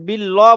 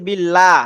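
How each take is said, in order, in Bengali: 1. L ধ্বনিটি ভারী ও মোটা। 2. L ধ্বনিটি হালকা ও পাতলা। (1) "বলবেন না" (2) "লামের আগে যদি জের থাকে তখন ওই র যেমন বারিক হয়"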